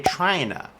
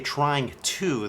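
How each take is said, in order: First: The words are blended into one reduced form. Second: Each word is pronounced fully and separately. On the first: The speaker calls it right. "they say" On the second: The speaker calls it wrong. "Native speakers usually don't say"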